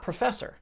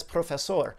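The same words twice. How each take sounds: First: "professor" with a reduced pruh and an r-coloured ending; "professor" said the English way, pruh-FESS-er; English pronunciation. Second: "profesor" with a round o in pro and a full sor; "profesor" said the Spanish way; Spanish pronunciation. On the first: Contrasting the two versions for viewers, English sounds. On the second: Contrasting the two versions for viewers, Spanish sounds. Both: Shown as a demonstration. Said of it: "If he says it in English".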